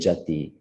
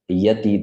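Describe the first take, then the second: First: The word begins with a j sound. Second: The word begins with a y sound. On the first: "they pronounce ya as ja" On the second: "they don't pronounce ya as ya"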